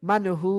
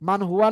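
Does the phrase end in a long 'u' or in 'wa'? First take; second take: long u; wa. First: The phrase ends on a stretched long 'u'. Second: The phrase ends with a short 'wa' syllable. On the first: The speaker calls it right. "মান হু একালিপ টানতেছি" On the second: The speaker calls it wrong. "মান হুয়া না পড়ে"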